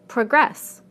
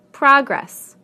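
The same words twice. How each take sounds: First: Pro-GRESS, the verb; stress on second syllable. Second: PROG-ress, the noun, falling; stress on first syllable. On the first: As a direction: punch GRESS in progress, weak pro. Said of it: "second syllable in the verbs". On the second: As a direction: punch PROG in Progress. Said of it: "first syllable in the nouns". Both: Shown as a demonstration.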